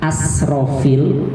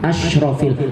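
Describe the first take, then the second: First: The consonant after the first vowel is 's'. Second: The consonant after the first vowel is 'sh'. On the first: The most wasteful of prophets. The speaker calls it wrong. "kalau pakainya sin" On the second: The most noble of prophets. The speaker calls it right. "pakainya shin"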